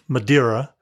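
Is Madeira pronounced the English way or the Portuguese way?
English. The name is pronounced the usual English way. "the usual pronunciation in English"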